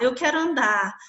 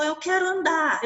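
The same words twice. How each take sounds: First: Said in the usual way. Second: Higher, urgent plea to walk; eager boy. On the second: Retold or imitated. Paralysed boy begs his mother to walk, high and eager. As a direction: push it up, he can't wait.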